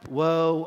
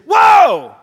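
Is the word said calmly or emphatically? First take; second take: calmly; emphatically. First: The word is said flatly and calmly. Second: The word is said loudly and emphatically. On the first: A solemn, plain statement of sorrow. The speaker calls it wrong. "it's not just like" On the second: An urgent call to stop and pay attention. The speaker calls it right. "It is, whoa! ... That word whoa there is emphatic, it's passionate"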